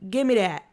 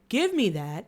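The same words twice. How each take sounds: First: The first sound of 'that' is changed. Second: The first sound of 'that' is said normally. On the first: "it sounded like, couldn't pronounce the T sound" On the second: "when she said"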